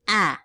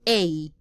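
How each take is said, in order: First: The vowel is said as a short sound. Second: The vowel is said like its letter name. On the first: "the short sounds are a little different" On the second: "the long sound will be the same name"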